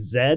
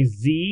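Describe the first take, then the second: First: The letter is said the British way, 'zed'. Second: The letter is said the American way, 'zee'.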